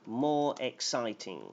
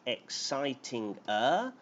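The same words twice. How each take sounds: First: "more" leaned on, then "exciting" falling; right form. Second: "exciting-er" said as one word with an -er ending tacked on; wrong form. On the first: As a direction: give "more exciting" as the right answer, "more" pushed forward. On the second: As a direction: offer "exciting-er" as the wrong choice, the -er added straight onto exciting. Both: Shown as a demonstration. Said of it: "you have two choices".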